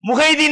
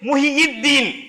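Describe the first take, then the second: First: The name is said with a short 'hai' middle. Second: The name is said with a full 'hiyid' middle. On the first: This is how people usually say it. The speaker calls it wrong. "முஹைதீன் நம்ம சொல்றோம்" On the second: It means the one who revived the religion. The speaker calls it right. "சரியான உச்சரிப்பு வந்து முஹியித்தீன்"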